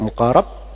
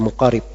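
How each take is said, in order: First: The vowel after the r is 'a'. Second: The vowel after the r is 'i'. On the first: "bisa dibaca muqarab" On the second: "bisa dibaca muqarib"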